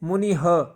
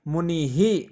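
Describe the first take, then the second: First: The final breath sound is followed by 'a'. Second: The final breath sound echoes the vowel 'i'. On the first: The speaker calls it wrong. "तो गलत होगा बच्चों" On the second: The speaker calls it right. "अंतिम वर्ण के अनुसार ही विसर्ग का उच्चारण किया जाता है"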